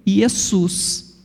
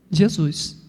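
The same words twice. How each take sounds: First: "Jesus" as ye-SUS, with final s; Greek pronunciation. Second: "Jesus" with soft zh and z, zhe-ZUS; Portuguese pronunciation. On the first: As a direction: say "Jesus" with y and hissing s. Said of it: "o grego vai acrescentar o sigma final". (pronúncia grega, "Jesus" como iessús) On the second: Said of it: "vai se tornar J". (pronúncia portuguesa, "Jesus" com j e som de z) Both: Shown as a demonstration.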